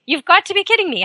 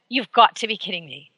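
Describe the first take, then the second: First: Much higher, disbelieving repeat; incredulous. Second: Said in the usual way. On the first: Acted. Host scoffing at jogger outrunning bear, incredulous high.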